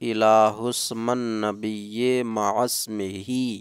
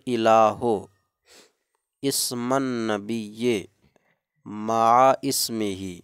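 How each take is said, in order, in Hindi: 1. हमज़ा के बिना शब्द आपस में मिलाकर पढ़े जाते हैं। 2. 'ism' से पहले हमज़ा दोनों शब्दों को अलग करता है।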